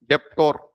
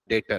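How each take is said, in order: First: A p sound is pronounced before the t. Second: No p sound is heard before the t. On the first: The speaker calls it wrong. "मैंने तो इसको ऐसे पढ़ा था first time" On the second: The speaker calls it right. "तो बेटा इसको पढ़ते हैं डेटर"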